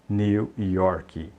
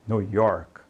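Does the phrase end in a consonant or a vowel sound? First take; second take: vowel; consonant. First: An extra 'ee' vowel follows the final K. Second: The phrase ends cleanly on the K sound. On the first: The speaker calls it wrong. "não diga New York" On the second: The speaker calls it right. "termina em K e não coloque esse I no final"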